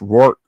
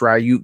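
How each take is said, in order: First: The surname sounds like 'Rourke', with an 'r' ending. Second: The surname sounds like 'Ryuk', with a 'y' glide. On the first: This may be the proper way. "but it might be Curtis Rourke" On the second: This is the speaker's habitual, not proper, way. "I always say Curtis Ryuk"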